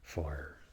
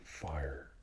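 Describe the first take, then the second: First: It is said in an American accent. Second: The same.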